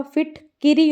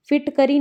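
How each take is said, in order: First: फिटकिरी said as phit-ki-ri, with i in the middle; correct फिटकिरी. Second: फिटकरी said as phit-ka-ri with a short a; wrong form फिटकरी. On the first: Teacher giving the right word, फिटकिरी as phit-ki-ri. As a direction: stress the ki in फिटकिरी. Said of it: "फिटकिरी होता है". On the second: Teacher showing the wrong word, फिटकरी as phit-ka-ri. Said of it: "फिटकरी नहीं होता". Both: Shown as a demonstration.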